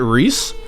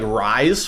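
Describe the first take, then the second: First: The name is said with an 'ee' vowel. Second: The name is said with an 'eye' vowel. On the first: The speaker calls it right. "but is it Reese?" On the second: The speaker calls it wrong. "I thought it was like like Rise for a bit"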